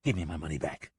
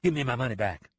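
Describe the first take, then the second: First: Lower, softer, steady demand; a cheated boss pressing again; insisting. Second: Short, flat demand; a cheated boss demanding; blunt. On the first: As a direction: repeat it with quiet menace. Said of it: "Price insisted". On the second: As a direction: say it plain and hard. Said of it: "Price said bluntly". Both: Acted.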